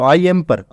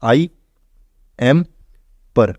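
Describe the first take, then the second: First: Said in the usual way. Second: Each word said alone with long pauses between; broken down word by word. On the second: Shown as a demonstration. Teacher splitting I, am, पर apart for students, long pauses between words. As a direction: break I, am, पर apart, one at a time. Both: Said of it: "इसको break down करते हैं".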